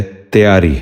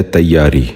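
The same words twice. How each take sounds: First: تیاری with a long e after the t, teyaari; the wrong way: تیاری as te-yaa-ri; wrong pronunciation. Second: تیاری with a short a after the t, tayyaari; the right way: تیاری as tay-yaa-ri; correct pronunciation. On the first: Teacher demonstrates the common mistake, تیاری as teyaari. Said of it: "یہ غلط تلفظ ہے". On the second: Teacher gives children the correct تیاری, tayyaari. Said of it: "درست تلفظ ہے تیاری". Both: Shown as a demonstration.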